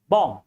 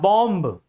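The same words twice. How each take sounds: First: The final B sound is silent. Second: The final B sound is pronounced. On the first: The speaker calls it right. "B is silent" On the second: The speaker calls it wrong. "not bomb"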